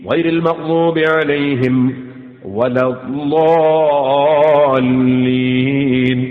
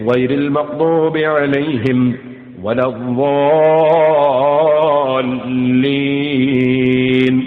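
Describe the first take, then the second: The two takes are said the same way.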